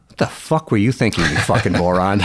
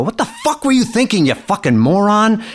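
First: Deadpan mock scolding, nearly conversational; joking callback. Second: High-pitched re-enacted angry tirade; upset outburst. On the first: Father teasing the calmed-down boy in the car, joking callback. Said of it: "we had this joking relationship". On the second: Father opens car door on the boy who dented it, upset outburst. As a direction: blow up at him, pitch jumping way up. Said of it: "I was a little upset".

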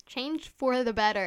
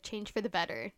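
First: "Change for the better." said again louder and firmer; louder repeat. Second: Said in the usual way. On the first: Real, not acted. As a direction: proclaim "Change for the better." as a rallying send-off.

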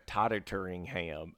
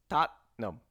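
First: "Tottenham" dragged out with an extra -ing, "Tot-ten-ing-ham"; mom's mispronunciation. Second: "Tottenham" in two crisp syllables, "TOT-nam"; correct pronunciation. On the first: Retold or imitated. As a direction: mimic the four-syllable "Tottenham", stretched out slowly. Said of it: "she used to call it". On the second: Shown as a demonstration. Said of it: "Just two syllables".

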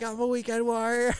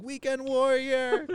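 First: Very high, strained mock scream; Weekend Warrior. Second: High, drawn-out mock call; Weekend Warrior. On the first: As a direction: squeal it long like a raving partygoer. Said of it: "he's screaming". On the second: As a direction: stretch it out in a high voice. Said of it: "watching him going".

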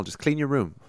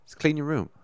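First: Imitating Peterson. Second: Mantra-like echo; imitating Peterson, repeated. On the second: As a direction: repeat Just clean your room as a mock mantra. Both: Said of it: "he's always like".

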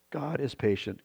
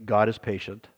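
First: Softer, tender echo of the phrase; softer repeat. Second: Said in the usual way. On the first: Shown as a demonstration. Pastor repeating to his flock, softer tender echo. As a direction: let it land gently the second time.

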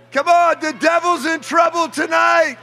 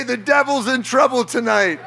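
First: High shouted repeat of the line; fired-up preacher shouting the phrase; preacher's shout. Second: Said in the usual way. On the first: Shown as a demonstration. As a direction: belt it out to the whole room. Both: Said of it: "look at your neighbor and say".

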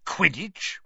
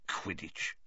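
First: "Quidditch?" higher, rising in outraged disbelief; disbelieving. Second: Soft mutter under the breath, "Quidditch" barely voiced. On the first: Uncle repeating the letter's word, scornful rising question. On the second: Uncle reading the strange word, muttering under his breath. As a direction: say "Quidditch" low and quiet to himself. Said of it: "he muttered under his breath". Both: A narrator's reading.

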